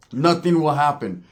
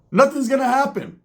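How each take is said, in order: First: Slow, measured restatement in usual pitch; slow emphasis. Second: Higher-pitched, drawn-up dismissal; high-pitched insistence. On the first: Vlogger settling the rap feud question, slow emphasis. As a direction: spell it out slowly and firmly. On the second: Vlogger dismissing a rap feud, high-pitched insistence. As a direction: wave it off in a raised voice. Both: Real, not acted.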